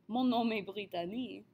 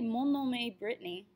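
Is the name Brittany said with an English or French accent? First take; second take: French; English. First: The name is said with a French accent. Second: The name is said with an English accent. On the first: The sentence sounds like it all goes together. The speaker calls it right. "if I can say my name in a Frenchy accent" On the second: The sentence sounds split between two languages. The speaker calls it wrong. "you have a very obvious disconnect between the languages there"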